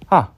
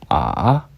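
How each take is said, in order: First: The pitch falls sharply from high. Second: The pitch dips low. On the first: "떨어지는 성조" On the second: "내려가는 성조"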